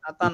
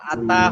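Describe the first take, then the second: First: The t-sound is weak, like a Bengali t. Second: The t-sound is full and clearly pronounced. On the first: The speaker calls it wrong. "আতা না" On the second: The speaker calls it right. "আতা হবে"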